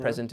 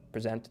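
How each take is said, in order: First: "present" said like the gift, PREZ-ent; "present" with a strong PREZ and weak ending; stress on first syllable. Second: "present" said as the verb, pre-ZENT; "present" with a weak start and strong ZENT; stress on second syllable. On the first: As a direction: punch the start of "present". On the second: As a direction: punch the end of "present". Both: Shown as a demonstration. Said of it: "that's because where I put the stress".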